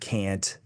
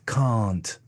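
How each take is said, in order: First: It is said with an American vowel. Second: It is said with a British RP vowel.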